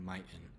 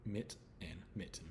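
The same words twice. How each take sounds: First: "miten" as "MY-ten"; wrong long I. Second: "mitten" with the short vowel of "sit"; short I sound. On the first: Teacher showing what mitten doesn't become, "miten" with long I. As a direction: say "miten" with the vowel of "eye". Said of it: "doesn't change to the I sound". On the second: Teacher sounding out for learners, "mitten" with short I. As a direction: keep the I short in "mit" and "mitten". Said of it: "it stays as". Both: Shown as a demonstration.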